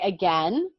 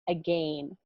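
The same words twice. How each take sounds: First: It is said in an American accent. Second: It is said in a British accent. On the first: "which is how teacher [name] says it because she's American" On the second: "if you were British, you'd say again"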